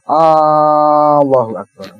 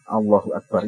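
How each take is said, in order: First: The first vowel of Allah is drawn out long. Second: The first vowel of Allah is short. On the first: The speaker calls it wrong. "ketika memanjangkan hamzahnya apa namanya jalalah" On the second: The speaker calls it right. "ini ini yang standar"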